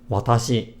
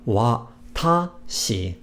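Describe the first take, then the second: First: The word is said flat, without accent. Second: The middle of the word is accented. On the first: The speaker calls it right. "It's more or less flat" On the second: The speaker calls it wrong. "So it's not watashi"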